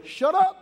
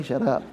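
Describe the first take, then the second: First: High, sudden cut-in with rising end; mock-gentle interruption. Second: Said in the usual way. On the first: Father cutting off the son's apology, high and abrupt. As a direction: cut him off in a high-pitched voice. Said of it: "very in his gentle way".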